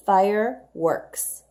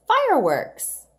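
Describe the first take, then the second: First: Fireworks said slowly, syllable by syllable; slow model read. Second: Fireworks higher and louder, with a burst; excited fireworks. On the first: Teacher sounding out fireworks for children. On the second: Teacher exclaiming fireworks to excite the children. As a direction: announce Fireworks with delight. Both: Shown as a demonstration. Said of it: "Here's another compound word".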